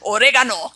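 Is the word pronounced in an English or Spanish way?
Spanish. It is pronounced the Spanish way.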